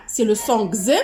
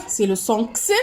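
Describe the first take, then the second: First: Voiced "gz" sound for the letter X. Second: Crisp "ks" sound for the letter X. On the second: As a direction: say X as an unvoiced "ks". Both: Shown as a demonstration. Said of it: "selon la prononciation".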